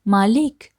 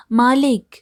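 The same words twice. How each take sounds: First: First call for the master, raised. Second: Second call, higher and a bit louder. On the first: Laborer calling his master from outside, raised call. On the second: Laborer calling master again, higher louder call. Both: A narrator's reading. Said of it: "बाहर से पुकारता है".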